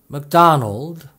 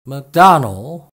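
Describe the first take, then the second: No difference in how they are said.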